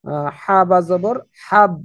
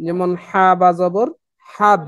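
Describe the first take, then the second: First: হা বা জবর হাব spelled slowly for the class to echo; slow it down so they can say it with you; slow call-and-repeat drill. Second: হা বা জবর spelled letter by letter, then হাব said once; spelling drill. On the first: Teacher leading students to repeat হা বা জবর হাব slowly. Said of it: "আমার সাথে সাথে আপনারা একটু বলার চেষ্টা করবেন". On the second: Teacher spelling হা বা জবর for students, rising on each letter name. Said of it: "একবার উচ্চারিত হবে, দুইবার না". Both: Shown as a demonstration.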